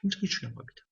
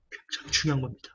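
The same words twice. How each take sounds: First: Higher and much softer 굉장히 중요한 겁니다; intense hush. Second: Said in the usual way. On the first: Shown as a demonstration. Preacher urging the congregation, high hushed emphasis. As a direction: lean in and press it softly, up high. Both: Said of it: "강조할게요".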